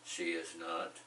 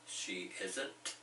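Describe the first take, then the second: First: All three words are said separately. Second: Is and not are joined into one word. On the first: "three ways to say that" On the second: "three ways to say that"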